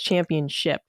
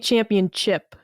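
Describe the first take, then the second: First: The word ends with the sound 'ship'. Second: The word ends like 'chip', as in chocolate chip. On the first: The speaker calls it right. "I found out it was championship" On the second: The speaker calls it wrong. "I always say champion chip, like a chocolate chip cookie"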